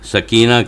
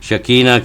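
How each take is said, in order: First: The word begins with an s sound. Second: The word begins with an sh sound. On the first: This is the original Arabic form. The speaker calls it right. "हम लोग सकीना कहते हैं" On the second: This is the altered Hebrew form. The speaker calls it wrong. "यहूदी इसको शकीना कहते हैं"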